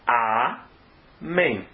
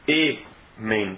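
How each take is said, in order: First: The vowels are a then e. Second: The vowels are e then e. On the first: The speaker calls it right. "é amém, certo?" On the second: The speaker calls it wrong. "não é amém, está falando errado"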